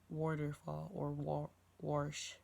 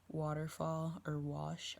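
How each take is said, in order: First: The W words use a southern Pennsylvania accent. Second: The W words use a Western New York accent. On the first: "they would say" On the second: "how we would say"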